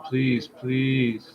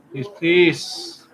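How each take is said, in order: First: Quiet pleading, please please; soft begging. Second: Louder pleading, please please; loud begging. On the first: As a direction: beg gently. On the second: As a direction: beg loudly like a desperate dude. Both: Pretend. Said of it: "we'll put on the begging dude".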